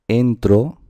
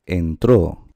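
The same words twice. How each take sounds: First: "entro" as EN-tro, force at the start; stress on first syllable. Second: Slow "entró" as en-TRÓ; stress on final syllable. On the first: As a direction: punch the opening "en" of "entro". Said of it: "aquí está la fuerza". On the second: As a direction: put the force on the last syllable of "entró". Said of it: "también existe entró". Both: Shown as a demonstration.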